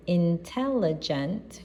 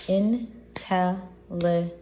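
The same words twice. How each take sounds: First: Said in the usual way. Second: "intelligent" slowly split into four clapped syllables, in-tel-li-gent. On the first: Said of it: "you know, we clap to syllables". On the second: Shown as a demonstration. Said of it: "we clap to syllables".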